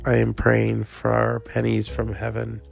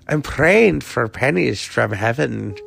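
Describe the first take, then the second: First: It is said in the speaker's usual accent. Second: It is said in an Irish accent.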